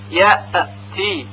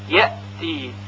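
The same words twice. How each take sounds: First: The hamza is released with a bouncing echo. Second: The hamza stops cleanly with no echo. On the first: The speaker calls it wrong. "غلط هست، چون همزه که ساکن هست قلقله پیدا کرده" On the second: The speaker calls it right. "مثلا این طور تلفظ میکنیم کلمه یأتی"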